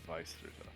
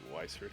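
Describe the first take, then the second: First: It is said with a German V sound. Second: It is said with an English W sound.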